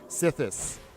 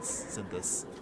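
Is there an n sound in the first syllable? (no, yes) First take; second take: no; yes. First: The first syllable has no n sound. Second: The first syllable has an n sound. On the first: The speaker calls it right. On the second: The speaker calls it wrong.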